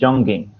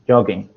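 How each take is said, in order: First: An extra n sound is added to the word. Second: No extra n sound is added to the word. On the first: The speaker calls it wrong. "So you're kind of putting in an n n sound. You're you're saying jogging" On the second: The speaker calls it right. "So it's jog, jog, jogging"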